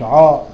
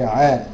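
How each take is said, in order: First: The syllable sounds heavy, with a rounded, backed mouth. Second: The syllable sounds light, with an open mouth. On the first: The speaker calls it wrong. "لا هي مش عا" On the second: The speaker calls it right. "لا هي عا"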